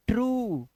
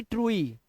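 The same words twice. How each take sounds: First: ट्रू ending in one long oo, the e silent; one-vowel ट्रू; correct true. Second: ट्रुई with an added ee, troo-ee; wrong two-vowel ट्रुई; misreading of true. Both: Shown as a demonstration. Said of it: "ना कि ट्रुई".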